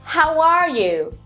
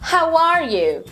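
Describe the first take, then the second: Both takes have the same delivery.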